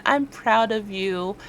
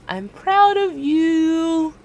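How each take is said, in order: First: Slow affirmation. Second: Higher, drawn-out I'm proud of you; high slow affirmation. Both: Shown as a demonstration. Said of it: "tell yourself once again".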